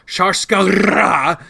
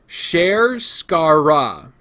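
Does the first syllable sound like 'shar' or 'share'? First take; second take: shar; share. First: The first syllable sounds like 'shar'. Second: The first syllable sounds like 'share'. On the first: The speaker calls it wrong. "I had been jokingly calling it Sharskara" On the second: The speaker calls it right. "here's how it's actually supposed to be said"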